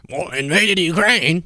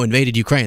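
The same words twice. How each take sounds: First: Slow, higher cartoonish mock voice. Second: Said in the usual way. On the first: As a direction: ham up a cartoon narrator. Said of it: "like, a cartoon voice". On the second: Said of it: "That, no, invaded Ukraine".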